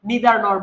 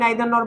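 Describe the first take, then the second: First: The first vowel sounds like 'ee'. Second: The first vowel sounds like 'eye'. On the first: "তুমি চাইলে নিদার নর বলতে পারো" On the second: "আমি নাইদার নর বলতে অভ্যস্ত"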